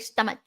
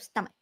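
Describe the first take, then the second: First: The middle consonant sounds like 'ch'. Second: The middle consonant sounds like 'k'. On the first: The speaker calls it wrong. "I used to say stomach" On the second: The speaker calls it right. "the S C is pronounced like k, not like ch"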